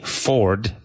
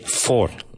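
First: The final D sound is clearly pronounced. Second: The final D sound is left out. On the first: The speaker calls it right. "they don't say Ford" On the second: The speaker calls it wrong. "they say Ford. they leave out the D"

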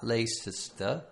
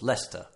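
First: The name is said with more than two syllables. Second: The name is said with just two syllables. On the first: The speaker calls it wrong. "you might say something like Leicester" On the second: The speaker calls it right. "But it's Leicester. Two syllables"

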